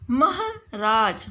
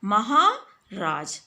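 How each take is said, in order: First: महराज with a short हर, slow; wrong form. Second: महाराज with a long हा, slow; correct form. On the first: Teacher showing pupils a misspelling, slow. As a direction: say महराज, dropping the long आ. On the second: Teacher giving pupils the correct word, slow. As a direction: stretch हा in महाराज. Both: Shown as a demonstration. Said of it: "महराज नहीं होता है".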